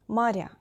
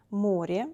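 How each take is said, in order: First: Моря with soft r, stressed final я, falling. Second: Море with soft r, stressed о, rising. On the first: Teacher models the plural for learners, soft R. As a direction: say maRYA, palatalizing р. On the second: Teacher models the singular for learners, soft R. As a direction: say MOrye, palatalizing р. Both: Shown as a demonstration. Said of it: "R is soft in both of forms".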